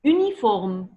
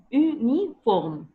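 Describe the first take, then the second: First: Said in the usual way. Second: Uniforme stretched out slowly; slow demo word. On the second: Shown as a demonstration. Teacher showing a pupil how to say uniforme, slowly. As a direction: draw out uniforme syllable by syllable. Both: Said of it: "comme ça".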